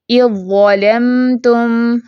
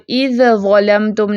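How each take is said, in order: First: Slow recitation, ذ fully merged into ظ in اِذْ ظَلَمْتُمْ; tajweed recitation. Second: Said in the usual way. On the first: Shown as a demonstration. Teacher shows correct reading of idgham, slow recitation. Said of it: "ذال کی کوئی آواز پہچان باقی نہیں". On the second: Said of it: "نہیں پڑھیں گے".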